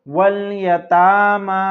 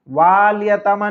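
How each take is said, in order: First: The first vowel is short, with no extra a. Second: The first vowel is long, with an extra a. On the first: The speaker calls it right. "तो पढ़ेंगे वल यतामा" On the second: The speaker calls it wrong. "वाल यतामा नहीं पढ़ेंगे"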